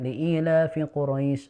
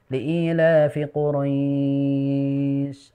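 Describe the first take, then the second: First: The vowel in Quraisy is held for two counts. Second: The vowel in Quraisy is held for four counts. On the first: "kita baca dua"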